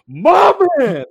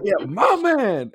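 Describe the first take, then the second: First: Loud, much higher yell of "My man!"; screamed cheer. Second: Slow, high stretched "my man"; drawn-out cheer. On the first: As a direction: belt "My man!" across the theater. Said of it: "When you screamed that". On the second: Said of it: "So all of a sudden I do that". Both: Retold or imitated.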